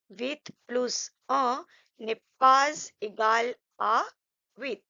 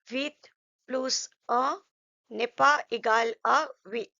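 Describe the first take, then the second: First: The words are joined with linking sounds before vowels. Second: The words are said separately without linking sounds. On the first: "if you want to go into detail, then you can say" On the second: "if you are a beginner, you just don't worry about that. You just simply say"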